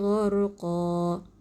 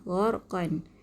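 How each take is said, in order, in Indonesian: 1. Kata ini berakhir dengan vokal, tanpa n. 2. Kata ini berakhir dengan bunyi n. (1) "oleh kerana dia waqaf, berhenti duduk di hujung, maka kita akan baca dengan baris satu sahaja" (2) "kalau wasal, kalau kita sambung jadi gharqan"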